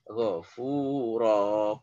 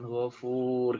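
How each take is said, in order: First: The word ends with a long vowel. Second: The word ends with a consonant. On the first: The speaker calls it right. "Maka dibaca ghafuro" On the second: The speaker calls it wrong. "bukan ghafur gitu ya"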